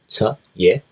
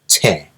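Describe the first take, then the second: First: It is said slowly as two separate syllables. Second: It is said quickly, merged into one syllable. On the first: "it is cha ye, half of ye" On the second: "pronounce it more quickly in a more fluid way"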